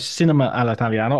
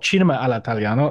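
First: It is said with an English-sounding pronunciation. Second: It is said with an Italian-sounding pronunciation. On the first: The speaker calls it wrong. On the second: The speaker calls it right.

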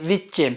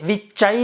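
First: The word ends in a plain e sound. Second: The word ends in an ay sound. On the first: The speaker calls it right. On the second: The speaker calls it wrong. "વિચય નથી"

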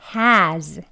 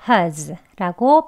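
First: Full open vowel with h, stressed. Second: Weak schwa vowel with h, unstressed. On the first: The word is emphasized in the sentence. "strong한 발음 먼저" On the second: The word is not emphasized in the sentence. "약하게 ... as 해가지고 has라고 발음하면 되겠습니다"

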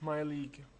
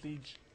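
First: The word ends with a hard g sound. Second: The word ends with a soft zh sound. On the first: The speaker calls it right. "my league, not liege" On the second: The speaker calls it wrong. "not liege"

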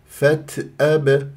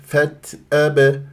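The two takes are said the same way.

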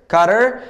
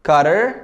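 Both takes have the same delivery.

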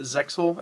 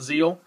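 First: The word has a 'ks' sound in the middle. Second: The word has no 'ks' sound in it. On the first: The speaker calls it right. "You do pronounce it ZEXAL" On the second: The speaker calls it wrong. "It's not ZEAL, like some people thought"

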